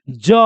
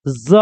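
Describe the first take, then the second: First: "ज" as a hard j, no buzz; j sound. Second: "ज" as a buzzing z; z sound. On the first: Teacher drilling the undotted letter, hard j sound. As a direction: say "ज" with a clean j. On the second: Teacher drilling the dotted letter, buzzed z sound. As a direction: buzz "ज" like English z. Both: Shown as a demonstration. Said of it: "sound पर ध्यान दीजिएगा".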